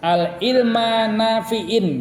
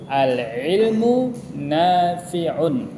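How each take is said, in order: First: The words end in -a and -in. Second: The words end in -u and -un. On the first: The speaker calls it wrong. "Tidak boleh dibaca" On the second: The speaker calls it right. "Yang benar apa?"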